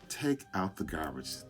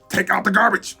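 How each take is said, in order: First: It is said in a calm, soft voice. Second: It is said in a loud, harsh voice. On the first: The request is likely to get results. The speaker calls it right. "The first tone works" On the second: The request is unlikely to get anything resolved. The speaker calls it wrong. "anybody with a loud pitch"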